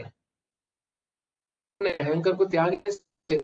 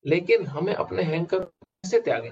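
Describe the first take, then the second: First: Slowed right down, each word weighed; slow emphatic repeat. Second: Said in the usual way. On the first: Shown as a demonstration. Teacher repeats his question to students, slow and deliberate. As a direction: let the question sink in slowly.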